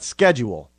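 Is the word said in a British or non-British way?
non-British. The word is said in a non-British way. The speaker calls it wrong. "not schedule"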